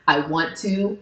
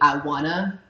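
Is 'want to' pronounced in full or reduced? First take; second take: full; reduced. First: Both words are said fully and separately. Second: The words blend into a reduced 'wanna'. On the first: "instead of saying like the word I want to" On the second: "I might say I wanna"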